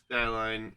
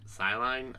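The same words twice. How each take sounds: First: Skyline said with a hard K after the S; hard-K pronunciation. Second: Skyline said as "sigh-line", no K; K-less pronunciation. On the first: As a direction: pronounce Skyline as "sky-line", K sounded. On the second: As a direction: try Skyline without the K, unsure. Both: Real, not acted. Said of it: "don't know how to pronounce his name".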